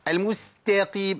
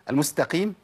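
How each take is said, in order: First: The vowel after the t is drawn out long. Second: The t goes straight to the q, short. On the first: The speaker calls it wrong. "يقول لك المستقيم" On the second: The speaker calls it right. "مش تاء قاف على طول"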